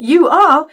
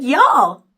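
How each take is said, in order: First: Said in the usual way. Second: Southern "y'all" run into one word; Southern accent. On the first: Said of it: "Instead of saying". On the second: Shown as a demonstration. Mother's worried speech is shown, Southern "y'all". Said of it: "talking Southern style".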